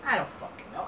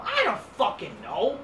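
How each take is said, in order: First: Breathy whisper of I don't fucking know. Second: Said in the usual way. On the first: Real, not acted. Vlogger giving up on the booking, whispered.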